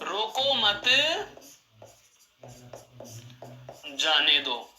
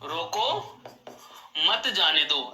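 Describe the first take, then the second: First: There is a pause after the second word. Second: There is a pause after the first word. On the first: The person should be allowed to leave. "विराम चिन्ह को एक पद आगे ले गए" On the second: The person should be stopped from leaving. "रोक के ठीक बाद में अल्प विराम लगा दिया"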